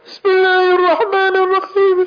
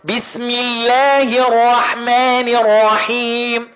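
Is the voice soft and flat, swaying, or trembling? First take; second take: soft; swaying. First: The voice is thin and soft with no heavy sounds. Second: The voice sways up and down on stretched sounds. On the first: "مقضيها كلها لا تفخيم ولا ترقيق" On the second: "عمال رايح جاي وعمال يترقص كده"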